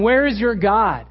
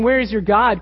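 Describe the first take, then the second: First: Taunting. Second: Said in the usual way. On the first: Retold or imitated. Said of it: "People are, are telling him". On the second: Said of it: "Now, they're not saying".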